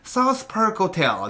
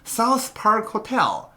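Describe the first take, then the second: First: The words sag and fall off weakly. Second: Each word is said crisply and strongly. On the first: The speaker calls it wrong. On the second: The speaker calls it right.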